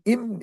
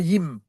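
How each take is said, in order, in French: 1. La syllabe commence directement par la voyelle. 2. La syllabe commence par un son y. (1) "tu dis im" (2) "et non yim"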